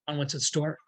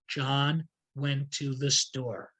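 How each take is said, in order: First: It is spoken quickly without emphasis. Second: It is spoken slowly with key words emphasized. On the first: "Then see if you can make it even faster" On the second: "So slowly"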